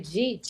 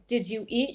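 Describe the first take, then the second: First: The words are squeezed into one syllable. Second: Each word is said separately and fully. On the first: "You say" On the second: "instead of saying"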